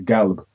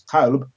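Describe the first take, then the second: First: The word begins with a hard g sound. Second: The word begins with a deep q sound. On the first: This marks the speaker as from Yemen. "They pronounce kaf g" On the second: This is the standard pronunciation of the word. "which is the q sound"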